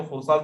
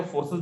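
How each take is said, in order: First: "फोर्सास" with a long "aa" in the last syllable; "फोर्सास" closing on "saas", not "ses"; variant pronunciation. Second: "फोर्सेस" with an "e" in the last syllable; "फोर्सेस" closing on "ses", not "saas"; variant pronunciation. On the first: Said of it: "चाहे तो फोर्सास बोले". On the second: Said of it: "चाहे तो फोर्सेस बोले". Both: Shown as a demonstration.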